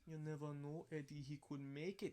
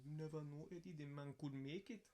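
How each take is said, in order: First: Put-on hopeful Crucian accent, rising pitch. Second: Lightly voiced Crucian accent; hint of a Crucian accent, hopeful. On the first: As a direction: imitate the uncle's Crucian accent. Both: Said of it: "in his Crujan accent".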